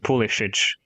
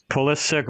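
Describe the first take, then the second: First: The name is pronounced the Croatian way. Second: The name is pronounced the English way. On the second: "I think the English pronunciation is Pulisic"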